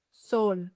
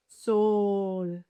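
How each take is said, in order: First: Said in the usual way. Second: SOL with a very long, held O; slow, sustained "Sol" for the listener; drawn-out demonstration. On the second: Shown as a demonstration. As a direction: stretch the vowel in "Sol". Word stretched for listening practice.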